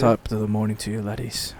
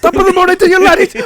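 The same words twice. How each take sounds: First: Much lower and softer mock Irish, dropping off; low, quiet, defeated take on the Irish catchphrase; deflated Irish greeting. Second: Loud and much higher hammed-up Irish accent; high, loud over-the-top Irish impression; mock Irish greeting. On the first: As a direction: mutter the greeting like the energy has drained out. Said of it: "loses his accent". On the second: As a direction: shout the greeting in a big mock Irish lilt.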